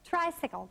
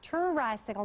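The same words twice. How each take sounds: First: The t and r blend with no vowel between. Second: A vowel is inserted between the t and r. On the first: The speaker calls it right. "Tr, tr, tricycle" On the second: The speaker calls it wrong. "not tricycle"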